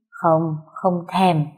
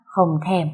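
First: Put-on very slow, drawn-out drunken pout; a drunk husband pouting at his wife, very slow and drawn out; drunken sulky refusal. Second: Said in the usual way. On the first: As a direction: stretch each word out like a sulking drunk.

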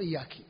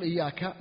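First: "إياك" ending in -ki instead of -ka; wrong final vowel. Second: Said in the usual way. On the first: Shown as a demonstration. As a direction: demonstrate the grammar slip, kasra on the kaf of "إياك". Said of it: "هذا يحيل المعنى". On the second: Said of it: "بدل ما يقول".

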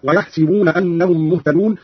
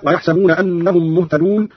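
First: ويحسبون said wa-yahsibuna, with si; kasra on sin. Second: Said in the usual way. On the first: Shown as a demonstration. Teacher showing Qalun's reading, ويحسبون as yahsibuna. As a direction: put an i after the س in ويحسبون, yahsibuna. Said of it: "بكسر السين هكذا". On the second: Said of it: "قرأ قالون بكسر السين".

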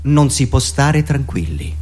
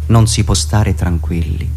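No difference in how they are said.

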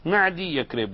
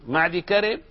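First: معدي يكرب with an added ya sound, like the student's mistake; معدي يكرب read as the common wrong form. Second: معد كرب said as two joined words with no added ya; معد كرب, dal straight into كرب; correct reading. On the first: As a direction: mimic the error: معدي يكرب with an extra ya syllable. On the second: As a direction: read معد كرب cleanly, no ya after the dal. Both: Shown as a demonstration. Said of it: "ما تقرأ معدي يكرب".

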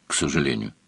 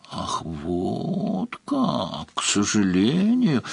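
First: Said in the usual way. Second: Long drawn-out, teasing repeat; sly mock echo. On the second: A narrator's reading. Countess throws Svarog's words back, slyly teasing. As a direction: stretch it slowly with a sly smile. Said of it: "лукаво улыбаясь".

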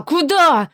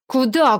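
First: Higher, louder frightened cry; rising fear. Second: A touch of fear; starting to worry; creeping fear. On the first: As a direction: panic starting to show. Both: Acted. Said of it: "В его голос пробирается испуг".

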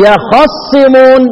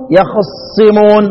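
First: يخصمون slowly recited with the whole fatha on kha; full vowel. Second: يخصمون slowly recited, the "a" after خ cut very short; snatched vowel. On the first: Teacher contrasting readings, slow full-vowel recitation. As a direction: give خ in يخصمون a complete "a", then doubled ص. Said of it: "الحركة كاملة". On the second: Teacher showing students ikhtilas, snatched-vowel recitation. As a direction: steal the vowel on خ in يخصمون, linger on the ص. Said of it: "واختلاس الحركة". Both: Shown as a demonstration.

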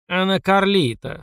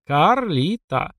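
First: Slow, weary correction through a speaker; sighing intercom voice. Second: Карлита said very slowly, each syllable drawn out; slow correction. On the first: Acted. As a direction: sigh it out like a tired doorman. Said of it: "со вздохом отреагировал динамик". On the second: Shown as a demonstration.

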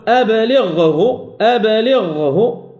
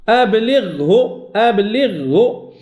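First: أبلغه with a slight pause on the غ; correct أبلغه. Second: أبلغه with the غ swallowed by the ه; wrong أبلغه. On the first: Teacher modelling the correct غ in أبلغه. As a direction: hold the غ in أبلغه a moment longer. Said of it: "أتأخر قليلًا لأتمكن من إخراج الغين". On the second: Teacher showing the faulty أبلغه. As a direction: rush the غ so it fades into the ه. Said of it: "ما أتيت بالغين الحقيقية". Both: Shown as a demonstration.

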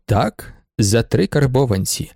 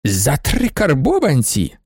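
First: Slow, composed answer; matter-of-fact confirmation. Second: Slow, pointed disbelief; incredulous question. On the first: Shop owner answers the baroness, slowly and composedly. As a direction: confirm the price evenly and firmly. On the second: Baroness questions the seller's price, slowly incredulous. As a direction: repeat the price as an affronted question. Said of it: "спитала баронеса, блиснувши гадючими очима". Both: A narrator's reading.

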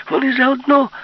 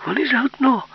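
First: Higher and louder full shout. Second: High, urgent cry; exclaim. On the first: Yulka shouting the warning again, full scream. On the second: Yulka warning that they are in league, high exclaim. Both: Acted. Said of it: "вигукнула Юлька".

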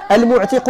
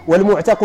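First: المعتق with an i in the last syllable, mu'tiq; kasra on المعتق. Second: والمعتق with an a in the last syllable, mu'taq; fatha on والمعتق. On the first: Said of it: "بالكسر". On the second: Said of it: "بالفتح". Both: Shown as a demonstration.

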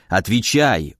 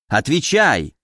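First: Lower, falling command; a stern touch of the grumpy hermit; demanding old man. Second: Put-on insistent old man's command, falling at the end; lightly voiced old hermit crying out for an answer; exclaimed demand. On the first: Woken hermit demands an answer, low and stern. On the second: Old man presses visitor for the secret, urgent exclamation. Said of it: "воскликнул дед". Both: A narrator's reading.

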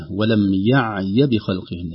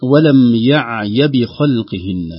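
First: ولم يعي with one short vowel on the yaa and no lengthening; correct short yaa. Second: ولم يعي with the yaa stretched long; wrong drawn-out yaa. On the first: (نطق صحيح للياء في يعي بلا مد) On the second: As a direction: stretch يعي slowly and loudly, as if the yaa had a long vowel. (مدّ خاطئ للياء في يعي) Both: Shown as a demonstration. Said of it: "ليس على الياء إلا حركة واحدة فقط ليست ممدودة".

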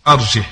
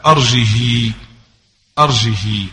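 First: أرجه said as arjeh, haa unvoweled; أرجه with sukun, Hafs reading; silent haa. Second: أرجه said as arjihi, haa with kasra; أرجه ending -hi, Asbahani reading. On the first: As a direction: end أرجه on a still haa. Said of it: "وحفص بالإسكان". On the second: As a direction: read أرجه as erjihi with the haa voweled i. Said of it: "فهذه قرأها الأصبهاني بكسر الهاء". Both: Shown as a demonstration.

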